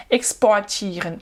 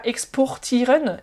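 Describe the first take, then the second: First: "exportieren" with OR opened into O-A; German vocalised R. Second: "exportieren" with a full O and a sounded R; wrong O-R pronunciation. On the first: Teacher correcting learners, "exportieren" with R turned into A. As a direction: say "exportieren" as ex-po-a-tieren, no consonant R. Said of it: "ça sonne plus comme O". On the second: Teacher showing learners the mistake, "exportieren" with a pronounced OR. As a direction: say "exportieren" as ex-por-tieren, R clearly heard. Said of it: "c'est pas exportieren". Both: Shown as a demonstration.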